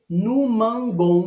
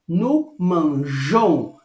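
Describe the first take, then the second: First: The middle consonant is a hard g sound. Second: The middle consonant is a soft zh sound. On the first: The speaker calls it wrong. "no mangon não existe" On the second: The speaker calls it right. "eu preciso dizer no manjon"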